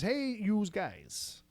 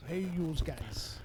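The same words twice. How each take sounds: First: Slow, drawn-out Noo Yawk greeting; 1930s beat cop. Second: Slow drawn-out New York greeting; 1930s beat cop. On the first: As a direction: lean into the thick New York accent. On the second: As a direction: lean on the yous. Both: Shown as a demonstration. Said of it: "she loves to hear me say it like that".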